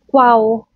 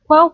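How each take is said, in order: First: "qual" with a full final l; "qual" ending on a clear l; wrong "qual" with a hard l. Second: "Quao" ending in a w sound; "Quao" as kwow; right way, l as w. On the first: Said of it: "hindi mo naman kailangan siya i-pronounce na parang". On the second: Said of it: "parang W yung pagka-pronounce". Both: Shown as a demonstration.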